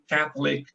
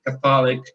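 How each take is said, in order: First: "Catholic" stressed on the first syllable; "Catholic" as CATH-lic; correct English stress. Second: "Catholic" stressed on the middle syllable, ca-THO-lic; mistaken Portuguese-like stress. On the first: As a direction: hit CATH and clip the middle of "Catholic". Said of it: "Porque ficou fácil ali". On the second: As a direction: lean on THO in "Catholic", as in católico. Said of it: "já cometi esse deslize". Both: Shown as a demonstration.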